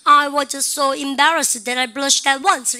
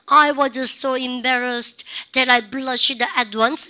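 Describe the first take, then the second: First: The sentence is spoken fast and rhythmically. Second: The sentence is spoken slowly. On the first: "이렇게 우리가 리듬 타면서 자꾸 그 스피드대로" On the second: "이렇게 천천히 하실 때"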